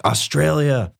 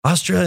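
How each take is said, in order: First: Higher, louder call across a crowd. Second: Higher, louder call with a questioning rise; second call to the soldiers, rising; calling again. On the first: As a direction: hail them by their country name, falling at the end. Calling out to soldiers. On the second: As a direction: call it again, lifting at the end to get their attention. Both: Retold or imitated.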